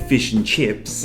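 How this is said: It is said in an Australian accent. "when Australians say fish and chips"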